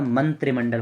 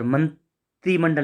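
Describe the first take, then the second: First: "मंत्रिमंडल" with short "tri"; correct form मंत्रिमंडल. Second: "मंत्रिमंडल" with long "tree", broken after man; wrong form मंत्रीमंडल. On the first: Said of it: "मंत्रिमंडल होता है". ("मंत्रिमंडल" में त्रि छोटा) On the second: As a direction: stretch the i in मंत्रिमंडल. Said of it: "मंत्रिमंडल नहीं होता". ("मंत्रिमंडल" में त्री लंबा, गलत रूप) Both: Shown as a demonstration.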